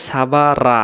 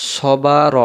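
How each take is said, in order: First: Wrong "সাবা রা" with open, light aa vowels; thin, open "রা" instead of rounded "র"; mistaken light RA. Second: Heavy, full-mouthed "র", not a light "রা". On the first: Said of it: "তখন র জবর রা হয়ে গেল". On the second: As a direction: say "র" thick and rounded in "সবা র". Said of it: "র অক্ষরটা মোটা উচ্চারণ হবে". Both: Shown as a demonstration.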